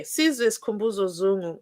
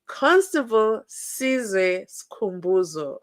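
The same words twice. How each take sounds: First: Said in the usual way. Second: Slow, every syllable spelled out; slowly, over enunciating. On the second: Shown as a demonstration. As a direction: carefully say each part of the name. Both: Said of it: "Let me say it slowly".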